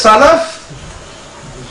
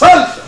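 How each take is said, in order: First: A short vowel follows the L sound. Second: No vowel follows the L sound. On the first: It refers to something good. "लाम के जबर के साथ" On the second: It refers to something bad. "लाम के सुकून के साथ"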